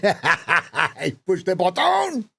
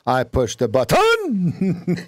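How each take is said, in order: First: Slow, higher mock French accent through a laugh. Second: Slow, higher mock French accent. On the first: Coach laughs through a French accent. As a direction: laugh while faking French. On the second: American faking a French accent, higher. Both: Shown as a demonstration. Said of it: "how Americans think that French speak".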